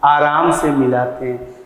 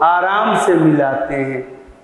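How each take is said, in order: No difference in how they are said.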